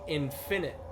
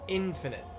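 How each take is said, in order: First: The stress falls on the second syllable. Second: The stress falls on the first syllable. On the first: The speaker calls it wrong. "You're stressing the wrong part" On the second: The speaker calls it right. "no, no, it's infinite"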